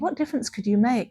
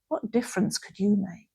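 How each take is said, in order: First: It sounds warm and encouraging. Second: It sounds scornful and dismissive. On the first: The listener has much to offer. "is look at all the things that you can offer" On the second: The listener cannot make any difference. "It's it's a negative thing"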